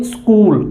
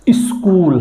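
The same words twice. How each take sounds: First: "स्कूल" starting straight on the S; Haryana pronunciation. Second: "स्कूल" with a short i before the S; added initial i. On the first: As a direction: say "स्कूल" as skool, no leading i. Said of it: "Haryana के लोगों से उच्चारण निकलेगा". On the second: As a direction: say "स्कूल" as is-kool. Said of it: "नहीं, स्कूल". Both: Shown as a demonstration.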